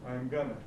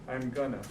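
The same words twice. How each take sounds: Both takes have the same delivery.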